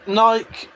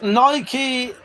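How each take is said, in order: First: Nike as one syllable, pitched higher; Nike with a silent E; Nike pronunciation variant. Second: Nike as NY-kee, pitched higher; Nike in two syllables, ending kee; Nike pronunciation variant. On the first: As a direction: say Nike to rhyme with bike. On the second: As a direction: say Nike to rhyme with spiky. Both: Shown as a demonstration. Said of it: "how you pronounce those".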